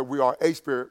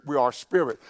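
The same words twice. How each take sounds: First: "a" said as a full, long "ay"; stress on A. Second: Said in the usual way. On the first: Shown as a demonstration. Preacher correcting a notion for the congregation, stressing "a" as "ay". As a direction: set off the article "a" as "ay". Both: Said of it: "vast difference between being a spirit and being spirit".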